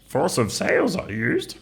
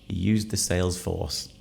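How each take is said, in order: First: It is said in an imitation of Yoda. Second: It is said in his normal voice.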